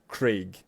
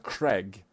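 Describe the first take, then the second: First: The vowel is a long ay sound. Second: The vowel sounds like the vowel in egg. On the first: The speaker calls it right. "Instead of Craig" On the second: The speaker calls it wrong. "They read this male name as Craig. A I G. Egg"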